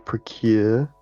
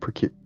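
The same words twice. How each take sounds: First: The U vowel is drawn out long. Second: The U vowel is kept short. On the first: "I think I like elongate the U" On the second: "I don't say procure"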